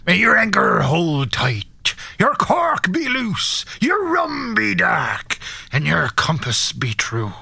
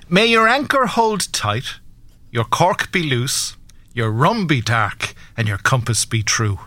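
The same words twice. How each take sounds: First: It is said in a put-on pirate voice. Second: It is said in his normal voice.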